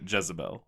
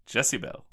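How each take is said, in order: First: The name starts with a buzzing 'Jez' sound. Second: The name starts with a hissing 'Jessie' sound. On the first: It is the common Southern name. The speaker calls it wrong. "They do not pronounce it Jezebel" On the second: It signals she is just like Jessie. The speaker calls it right. "They pronounce it Jessibel multiple times"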